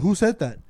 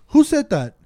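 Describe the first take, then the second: First: Said in the usual way. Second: Pitched-up, louder challenge to the rider; sharp demand. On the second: Retold or imitated. Driver confronting a rider, sharp raised challenge. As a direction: snap the question at her in the mirror.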